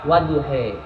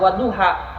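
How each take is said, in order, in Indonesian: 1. Vokal akhirnya condong ke bunyi e. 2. Vokal akhirnya adalah bunyi a yang terbuka. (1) "jadi imalah" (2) "dengan kata bunyi a"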